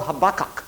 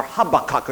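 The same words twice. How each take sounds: First: Habakkuk said the speaker's own first way; first pronunciation of Habakkuk. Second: Habakkuk said the other way, as an aside; alternative pronunciation of Habakkuk. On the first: Preacher naming Old Testament book, Habakkuk in first pronunciation. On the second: Preacher noting others' usage, alternative pronunciation of Habakkuk. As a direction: lower aside giving Habakkuk's variant pronunciation. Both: Shown as a demonstration. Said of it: "as some people say".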